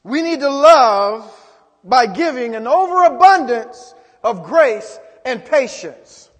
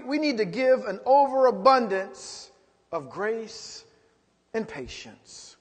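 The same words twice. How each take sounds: First: Emphatic preaching shout. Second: Said in the usual way. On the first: Shown as a demonstration. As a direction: drive it home to the congregation. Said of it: "Come on, some of us need to look inward". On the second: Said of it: "Come on".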